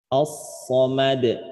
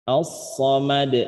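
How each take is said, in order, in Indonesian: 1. Kata ini berakhir pada konsonan d yang mati. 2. Kata ini berakhir pada konsonan d yang mati.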